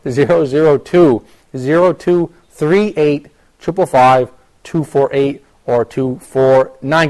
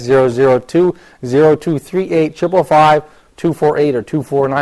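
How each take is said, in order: First: The number is read more slowly. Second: The number is read quickly and excitedly.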